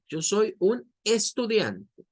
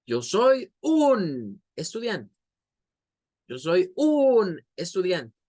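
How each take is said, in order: First: "estudiante" lifted and stressed, at a slow pace; higher, slow line that highlights "estudiante"; fuerza en ESTUDIANTE. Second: "un" stretched high and loud, "estudiante" dropped; slow, lean hard and long on "un"; fuerza en UN. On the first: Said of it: "más elevada a la palabra estudiante". (expresión elevada en "estudiante") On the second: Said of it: "como algo así". ("un" alargado con mucha fuerza de voz) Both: Shown as a demonstration.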